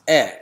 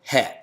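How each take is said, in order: First: The word begins with a plain vowel. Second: The word begins with an h sound.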